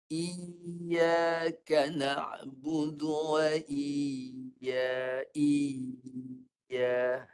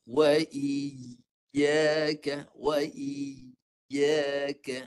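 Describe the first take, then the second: First: Iyyaka with the ya sound swallowed, drawn out very slowly; imitating a mistake. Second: "Wa iyyaka" very slow, ya sounded crisply with the tongue raised; clear ya demo. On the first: Teacher mimicking the student's unclear ya, drawn out. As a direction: sing "iyyaka" letting the ya blur, very slow. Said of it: "Haji baca macam ni". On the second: Shown as a demonstration. Ustaz modelling the sharp ya sound, very slow. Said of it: "tu baru jelas".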